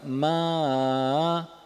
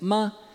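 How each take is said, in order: First: The pitch starts mid, dips low, then returns. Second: The pitch stays high and level throughout. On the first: It means horse. "eu saio do tom médio... vou mais para baixo e depois volto para o médio" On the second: It means mother. "É um tom alto. E ele é um tom que a gente chama de pontual"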